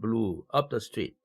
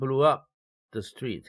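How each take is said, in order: First: There is a pause between blew and up. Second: Blew up is said together without a pause. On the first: Something moved along the street. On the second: Something exploded and destroyed the street.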